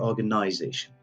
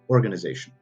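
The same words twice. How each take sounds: First: It is said in a British accent. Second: It is said in an American accent. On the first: "if the British have to pronounce it, they would say organization" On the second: "If Americans have to pronounce it, they will say organization"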